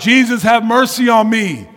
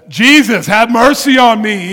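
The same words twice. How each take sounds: First: It is said at a normal volume. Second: It is said more loudly.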